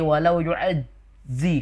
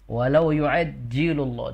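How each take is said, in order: First: The middle consonant sounds like a z. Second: The middle consonant sounds like a j. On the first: The speaker calls it wrong. "kayak huruf z" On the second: The speaker calls it right. "Berarti itu jim"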